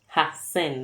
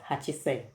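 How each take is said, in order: First: The word begins with a short 'ha'. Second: The word begins with a full 'hachi'. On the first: The speaker calls it right. "Hasen, not Hachisen" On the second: The speaker calls it wrong. "not Hachisen"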